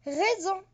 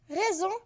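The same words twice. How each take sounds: The two takes are said the same way.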